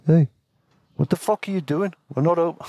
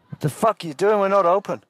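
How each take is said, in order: First: Higher-pitched attempt at a Maori accent; Maori Kiwi accent. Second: High-pitched irate receptionist; angry. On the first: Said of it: "God, Maori accent. Kiwi". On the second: Acted. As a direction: act out an angry man woken from sleep. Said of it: "Nah, he was angry anyway".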